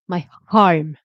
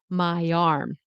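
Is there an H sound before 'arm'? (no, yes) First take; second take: yes; no. First: An H sound is added before 'arm'. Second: 'Arm' starts with a vowel, linked to 'my'. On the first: The speaker calls it wrong. "There's no H. It's not my arm" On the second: The speaker calls it right. "No, my arm"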